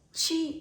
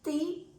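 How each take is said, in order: First: The t is softened to a ch sound. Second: The t stays a plain hard t sound. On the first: This is the Portuguese way. "en portugués" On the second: This is the Spanish way. "en español"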